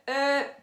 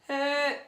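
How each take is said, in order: First: The voice is tight and pressed. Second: The same.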